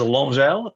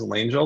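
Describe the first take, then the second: First: The name is said with a French pronunciation. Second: The name is said with an English pronunciation. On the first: "you say it the French way" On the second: "you say it the English way"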